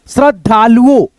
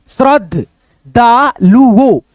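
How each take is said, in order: First: Said in the usual way. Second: श्रद्धालुओ very slow, stretched; slow demo. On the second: Shown as a demonstration. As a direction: sound out श्रद्धालुओ slowly. (श्रद्धालुओ को बहुत धीरे) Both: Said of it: "द के साथ में combined है".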